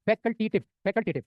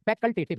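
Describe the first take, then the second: First: facultative said very slowly, every syllable stretched; slow, drawn-out term. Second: Said in the usual way. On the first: Shown as a demonstration. Teacher repeating the weed name for the class, slowly. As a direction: spell out facultative slowly so students catch it. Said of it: "क्या नाम है उसका?". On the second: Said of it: "उसका नाम क्या है?".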